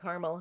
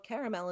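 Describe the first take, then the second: First: The word is said with two syllables. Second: The word is said with three syllables. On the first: "caramel has got two" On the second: "caramel has got three"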